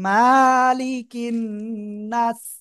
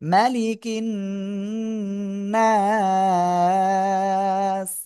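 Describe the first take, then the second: First: The first vowel is drawn out long. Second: The first vowel is kept short and quick. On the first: The speaker calls it wrong. "অনেকে আমরা পড়ি মালিকিন নাস, মালিকিন নাস, এরকম পড়লে হবে না কিন্তু আর" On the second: The speaker calls it right. "হরকতের উচ্চারণ তাড়াতাড়ি পড়তে হয়"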